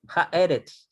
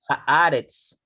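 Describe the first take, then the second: First: The vowel after the h is a short e. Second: The vowel after the h is a long a. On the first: The speaker calls it wrong. "ya no voy a decir" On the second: The speaker calls it right. "se alarga la vocal"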